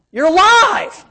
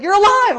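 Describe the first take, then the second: First: High, loud exclamation; real loud. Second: High, loud earnest exclamation; loud and serious. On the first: Loud coach greeting him in Sam's Club, shouting. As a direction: blurt You're alive at full volume. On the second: Coach repeating it in front of the in-laws, loud shout. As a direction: insist You're alive, loud and dead serious. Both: Retold or imitated. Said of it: "Like, real loud".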